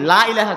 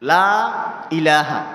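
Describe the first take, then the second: First: The vowel in 'la' is cut short. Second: The vowel in 'la' is drawn out long. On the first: There are certainly other gods. The speaker calls it wrong. "লাটারে টানলাম না" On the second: There is no god. The speaker calls it right. "যেমন আমরা বলি"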